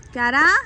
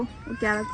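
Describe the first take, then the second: First: Calling out. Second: Said in the usual way. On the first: Real, not acted. Calling out to her son. (दूर से ज़ोर से पुकारना)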